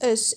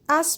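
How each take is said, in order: First: The word is said with a schwa vowel. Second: The word is said with a full vowel.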